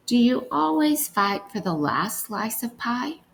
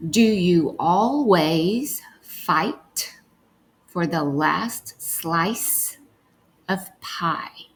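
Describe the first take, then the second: First: Said in the usual way. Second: Slow word-by-word reading for decoding. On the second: Shown as a demonstration. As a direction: read each word slowly, as if sounding it out. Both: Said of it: "let's read".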